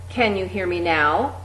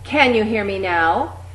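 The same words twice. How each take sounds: First: It is said at a moderate loudness. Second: It is said clearly loud and projected. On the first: "getting progressively louder each time" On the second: "getting progressively louder each time"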